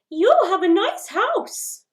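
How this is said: It is said at a high pitch.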